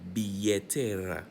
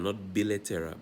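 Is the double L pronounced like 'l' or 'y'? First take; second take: y; l. First: The double L sounds like a y. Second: The double L sounds like an l. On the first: The speaker calls it right. "remember L L is pronounced as a Y" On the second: The speaker calls it wrong.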